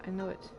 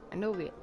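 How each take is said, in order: Both takes have the same delivery.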